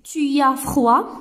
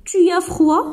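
First: Tu as froid said slowly, rising on as; slow teaching question, lift at the end. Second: Tu as froid? pitched higher, rising from tu; rising intonation question. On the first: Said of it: "le point d'interrogation". (question lente, montée sur as) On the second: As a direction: ask it with the voice lifting high. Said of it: "Ou bien l'intonation". (question haute et montante) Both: Shown as a demonstration.

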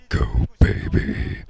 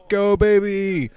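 First: Whispered, distorted killer voice. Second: Excited cheer. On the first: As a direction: hiss the cheer like a horror villain. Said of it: "use my killer voice for that". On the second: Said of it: "I'm gonna use my killer voice for that". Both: Shown as a demonstration.

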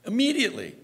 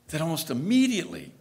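First: Immediately leapt up high and stressed. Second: Said in the usual way. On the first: Shown as a demonstration. Preacher stressing how soon Peter failed, immediately pitched high. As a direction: hit immediately much higher the second time. Repeats word for emphasis.

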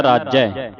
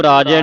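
First: ਰਾਜੈ with doubled j, raaj-jai; doubled consonant. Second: ਰਾਜੈ with one light j, raa-je; wrong single consonant. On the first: Teacher models correct reading, ਰਾਜੈ as raaj-jai. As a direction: lean on the j in ਰਾਜੈ. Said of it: "ਅਧਿਕ ਲਾ ਕੇ ਉਚਾਰਨ ਕਰਨਾ". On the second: Teacher shows what to avoid, ਰਾਜੈ with single j. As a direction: leave the j undoubled in ਰਾਜੈ. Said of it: "ਰਾਜੈ ਨਹੀਂ ਬੋਲਣਾ". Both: Shown as a demonstration.

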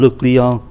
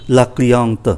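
First: "le client" ending on a nasal vowel, no t; masculine form. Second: "la cliente" with a sounded final t; feminine form. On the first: Teacher recaps the male customer word, masculine form. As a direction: leave the t of "le client" silent. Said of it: "Một người phái nam". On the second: Teacher recaps the female customer word, feminine form. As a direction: close "la cliente" on an audible t. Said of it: "và một người phái nữ". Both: Shown as a demonstration.

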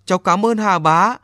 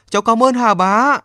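First: Put-on grateful boy. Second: Put-on higher, louder boy's heartfelt thanks; calling out his gratitude toward the sea; thanks rising. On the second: Boy bowing to the sea god, thanking him loudly. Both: A narrator's reading. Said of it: "miệng nói".

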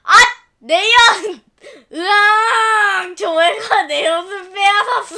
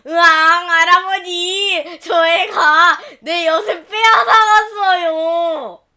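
First: Loud, slow howling sob; boy wailing that his taffy was taken; child bawling. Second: Loud, slow tearful howl; boy sobbing to his grandfather; child wailing. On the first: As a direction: bawl like a robbed kid. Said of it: "집이 떠나가라 큰 소리로 울어댔어요". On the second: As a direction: wail to grandpa for help. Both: Acted.

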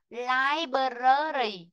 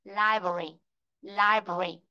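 First: "library" dragged into "lai-bơ-rơ-ri"; wrong-example "library" with every syllable spelt out; "library" in four full syllables; wrong pronunciation. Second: "library" compact, as "lai-bri"; lower-pitched, tidy "library" in fewer syllables; correct pronunciation. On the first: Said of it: "đừng có đọc thế". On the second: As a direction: model "library" with the middle vowel dropped. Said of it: "đừng có đọc thế, đúng không?". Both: Shown as a demonstration.

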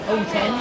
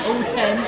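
Both takes have the same delivery.

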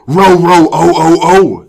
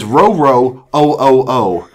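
First: Loud, higher dog howl in words; frightened dog. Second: Milder read-out of dog barks; dog words repeated. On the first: Acted. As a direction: yelp it like a scared dog. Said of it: "said Towser in a frightened voice". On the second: Shown as a demonstration. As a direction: sound out the dog's words deliberately. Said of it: "it says".

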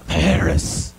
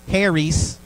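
First: Charis with a rasping ch from the throat; throaty charis. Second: Southern drawl on Harry's, an easy h sound; Southern pronunciation. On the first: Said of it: "like a loogie in your throat". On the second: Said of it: "Or we say in the South". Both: Shown as a demonstration.

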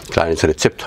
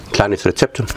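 First: Said in the usual way. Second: Talking through a mouthful; chewing while speaking; mouth full. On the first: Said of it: "Entschuldigung, mit vollem Mund redet man nicht". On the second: Real, not acted. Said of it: "mit vollem Mund redet man nicht". (mit vollem Mund gesprochen)

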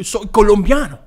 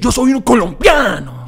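First: Louder, playful Spanish pronunciation; lightly put-on Spanish accent. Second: Loud, high, proud Spanish declaration; big mock-proud Spanish accent; hammed-up Spanish accent. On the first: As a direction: say it in Colombian Spanish. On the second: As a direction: shout it in showy Colombian Spanish. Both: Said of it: "I can say it 'cause I'm".

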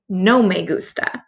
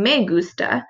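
First: "No me gusta" with "No" stressed and a falling tune. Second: Said in the usual way. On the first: Shown as a demonstration. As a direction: put weight on "No" at the front. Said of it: "you're gonna say". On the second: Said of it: "So instead of saying".

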